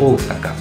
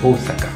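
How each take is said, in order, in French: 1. Une voyelle est tenue longue. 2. Une voyelle est tenue longue.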